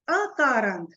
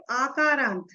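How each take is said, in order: First: अकारांत with a short first अ; correct short a. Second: आकारांत with a long drawn opening आ; wrong long aa. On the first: Teacher stressing the right form, अकारांत with short अ. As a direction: say अकारांत with a short clipped opening अ, not a long आ. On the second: Teacher showing students the wrong form, आकारांत with long आ. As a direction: contrast it: आकारांत, opening vowel stretched long. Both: Shown as a demonstration. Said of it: "ना कि आकारांत".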